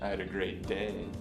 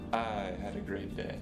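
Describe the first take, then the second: First: The stress is on the word "day". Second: The stress is on the word "I". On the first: The day was fine but the week was worse. "The last time, I accented day" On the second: Someone else did not have a good day. "The first time I emphasized the word I"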